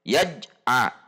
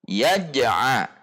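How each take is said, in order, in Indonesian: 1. Huruf j ditahan tanpa pantulan. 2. Huruf j dilepas dengan pantulan. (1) "tidak boleh dibaca tidak ada qalqalahnya" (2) "harus disambung"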